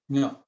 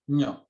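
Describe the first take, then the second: First: The letter name sounds like nyo. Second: The same.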